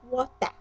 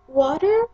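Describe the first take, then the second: First: It is said with a British accent. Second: It is said with an American accent. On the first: "in the British English" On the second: "here the pronunciation of water is water"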